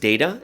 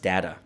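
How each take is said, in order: First: The word is given its American pronunciation. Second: The word is given its Canadian pronunciation. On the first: "in America it's data" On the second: "in Canada it's data"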